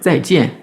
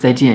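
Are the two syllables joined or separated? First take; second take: separated; joined. First: The two syllables are said separately, clearly apart. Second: The two syllables run together without a break. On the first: The speaker calls it right. "séparer les deux éléments" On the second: The speaker calls it wrong. "On va pas dire zaijian et puis tout coller"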